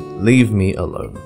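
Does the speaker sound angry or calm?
calm. It is said plainly, without extra force. "we just say"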